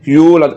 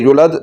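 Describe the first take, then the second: First: The first vowel is held long. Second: The first vowel is cut short. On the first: The speaker calls it right. "इस पेश को लंबा करना है, इसको पढ़ना है" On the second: The speaker calls it wrong. "अगर पेश को लंबा ना किया, यूलद की बजाय इसको पढ़ दिया"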